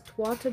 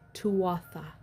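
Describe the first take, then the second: First: It is said with Celtic sounds, not letter by letter. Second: It is said letter by letter with English sounds. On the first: The speaker calls it right. "They are not pronounced as they're written, so it is Tuatha" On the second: The speaker calls it wrong. "not Tuatha"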